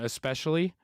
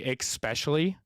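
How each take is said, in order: First: The word begins with a plain 'es' sound. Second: The word begins with an 'ex' sound. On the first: The speaker calls it right. "instead of saying especially" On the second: The speaker calls it wrong. "I say especially"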